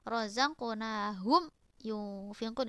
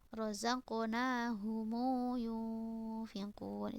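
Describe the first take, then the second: First: The m is closed with no following vowel. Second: The m takes a lengthened u vowel. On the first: "itu sukun maksudnya" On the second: "itu bisilah"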